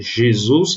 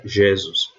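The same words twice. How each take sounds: First: Said in the usual way. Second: "Jesus" as ZHEH-zus, stress on the first syllable; wrong stress. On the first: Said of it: "ao invés de". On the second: Retold or imitated. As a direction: imitate the misread "Jesus", open e stressed and falling. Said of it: "ele lia".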